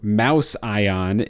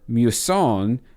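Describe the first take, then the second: First: The word sounds like 'mouse' plus 'ion'. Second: The word is said in a smoother usual form.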